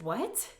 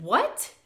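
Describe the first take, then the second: First: Said in the usual way. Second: Louder, higher shocked question; realizing she is bleeding, louder shocked question; shocked what. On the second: Retold or imitated. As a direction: blurt it in shock. Shocked second reply.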